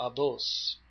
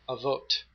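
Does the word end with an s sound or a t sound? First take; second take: s sound; t sound. First: The word ends with an s sound. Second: The word ends with a t sound.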